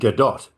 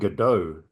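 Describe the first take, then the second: First: The final t is sounded. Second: The final t is silent. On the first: The speaker calls it right. "because it's actually" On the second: The speaker calls it wrong. "I always correct people who say Gal Gadot"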